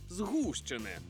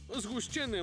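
First: The stress is on the first syllable. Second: The stress is on the second syllable. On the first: The speaker calls it right. "правильно наголошувати на «у»" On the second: The speaker calls it wrong. "я так само усе життя казав"

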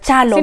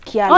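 First: The name begins with a 'ch' sound. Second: The name begins with a 'ky' sound. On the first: This is how the speaker's community says it. "Inafaa kuwa Chalo" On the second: This is how the family itself says it. "They pronounce it as Kyalo"

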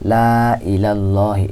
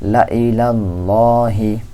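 First: The first vowel is drawn out, stretched long. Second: The first vowel is short, not stretched. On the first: The speaker calls it wrong. "এই লামের মধ্যে একটু টান হইতো" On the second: The speaker calls it right. "আলিফকে বাদ দিয়ে আমরা পড়তেছি"

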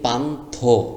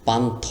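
First: The word ends in a 'tho' sound. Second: The word ends in a bare 'th' sound. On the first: The speaker calls it right. "ওকার দিয়ে দেন তাহলে উচ্চারণটি আরও সুন্দর হবে" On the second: The speaker calls it wrong. "পান থ লেখা আছে"

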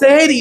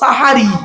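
First: The first vowel is e. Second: The first vowel is a. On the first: It refers to doing magic. The speaker calls it wrong. "শব্দটা সেহরি নয়" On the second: It refers to the pre-dawn meal. The speaker calls it right. "শব্দটা সাহারি"

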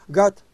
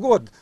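First: The vowel is an open 'a' sound. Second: The vowel is a rounded 'o' sound. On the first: This is how English speakers say it. "А эти произносят как гад, англичан" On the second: This is how people here say it. "у нас год, говорим"

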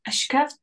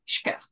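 First: The word begins with a vowel sound. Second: The word begins directly with a consonant. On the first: The speaker calls it wrong. "like it's not ashkeft" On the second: The speaker calls it right. "just shkeft"

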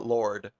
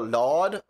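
First: It has an or vowel with an r sound. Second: It has an open aw vowel with no r. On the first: "or O R?" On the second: "is it A W"

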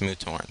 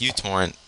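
First: The name begins with a 'moo' sound. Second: The name begins with a 'you' sound. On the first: The speaker calls it right. "It's MooTorrent" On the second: The speaker calls it wrong. "which is not actually the right way to say it"

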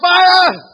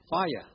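First: It is cried out with urgency. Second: It is said calmly, without urgency.

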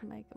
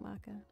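First: The first syllable rhymes with 'take'. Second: The first syllable rhymes with 'back'. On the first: "it's pronounced roughly like make a baby" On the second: "not maca"

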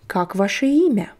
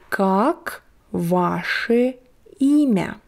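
First: The phrase is said quickly and smoothly. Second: The phrase is said slowly and carefully.

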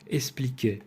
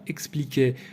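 First: No k sound comes before the s. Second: A k sound comes before the s. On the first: This is the colloquial form. "вимовляють 3 «еспліке»" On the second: This is the full form. "4 приголосних звуків «експл»"

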